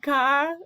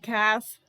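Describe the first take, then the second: First: The word ends without a 'th' sound. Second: The word ends with a clear 'th' sound. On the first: This follows the original language's spelling rules. "this word is supposed to be Ka" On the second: This treats the name as an English word. "So I also just say Cath because this is an English book"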